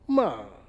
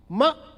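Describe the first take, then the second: First: The pitch falls from high to low. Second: The pitch rises from low to high. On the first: "high to low" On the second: "from low to high"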